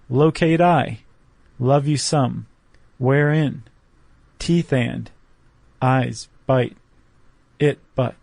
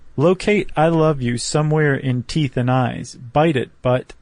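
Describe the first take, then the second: First: It is read with a pause every few words. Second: It is read smoothly without breaks. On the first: "leaving a beat after just about every line" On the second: "if you just read it like that"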